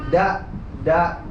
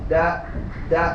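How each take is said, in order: Both takes have the same delivery.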